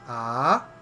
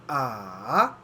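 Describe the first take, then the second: First: The pitch starts low and rises. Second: The pitch dips low, then rises. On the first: "the second tone is a rising tone" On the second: "the third tone is a dipping tone"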